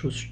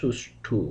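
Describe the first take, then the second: First: The word ends in an 'o' sound. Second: The word ends in a 'u' sound. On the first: The speaker calls it wrong. "আসলে শব্দটি সুষ্ঠ নয়" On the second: The speaker calls it right. "শব্দটি হবে সুষ্ঠু"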